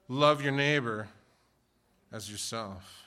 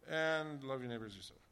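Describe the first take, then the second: First: It is said loudly and clearly with energy. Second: It is mumbled quietly with little energy. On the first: The speaker fully embraces this command. The speaker calls it right. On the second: The speaker is reluctant about this command. The speaker calls it wrong.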